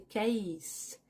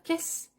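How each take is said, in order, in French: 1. La voyelle est un son 'ay'. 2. La voyelle est un son 'eh' court. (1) "c'est case" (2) "c'est pas caisse"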